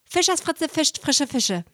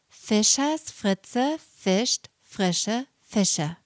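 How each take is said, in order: First: The phrase is spoken very fast. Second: The phrase is spoken very slowly. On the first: "Und jetzt ganz, ganz schnell" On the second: "Nochmal ganz langsam"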